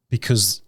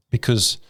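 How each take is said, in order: Both takes have the same delivery.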